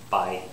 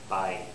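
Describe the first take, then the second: First: The vowel glides from ah into a y sound. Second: The same.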